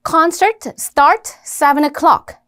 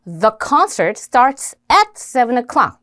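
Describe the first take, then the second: First: Very slow, each content word spaced out; bare keyword string, dragged word by word; content words only. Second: Very slow English read with function words; careful slow model sentence for learners; full sentence demo. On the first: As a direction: read out only the key words, slowly. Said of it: "요런 내용어가 있죠". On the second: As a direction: spell out the whole sentence word by word. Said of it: "요렇게 the, at 요런 것들이 기능어가 되겠죠". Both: Shown as a demonstration.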